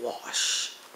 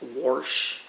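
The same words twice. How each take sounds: First: It is said in a standard accent. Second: It is said in a Kansas accent. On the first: "instead of wash" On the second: "he still to this day says wash"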